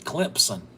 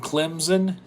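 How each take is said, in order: First: A p sound comes after the m. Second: There is no p sound after the m.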